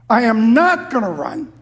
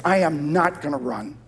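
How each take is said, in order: First: "not" punched higher and louder; stress on "not". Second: Said in the usual way. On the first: Acted. Preacher repeats David's vow to God, stress on "not". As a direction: hit "not" hard in a firm vow.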